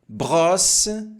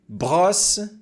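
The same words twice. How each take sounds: The two takes are said the same way.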